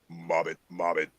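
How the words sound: It is said in a Lazy Eye Frog voice.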